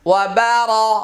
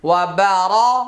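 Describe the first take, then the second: Both takes have the same delivery.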